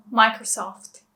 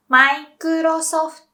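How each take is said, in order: First: Said in the usual way. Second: "Microsoft" slow and high as "maikurosofuto"; Japanese pronunciation. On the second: Shown as a demonstration. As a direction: say "Microsoft" loudly, "mai-ku-ro-so-fu-to". English then Japanese brand demo.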